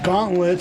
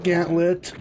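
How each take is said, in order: First: The first vowel sounds like 'aw' in saw. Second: The first vowel sounds like 'a' in cat. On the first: The speaker calls it wrong. "I mispronounced it as Gauntlet" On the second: The speaker calls it right. "but it is indeed Gantlet"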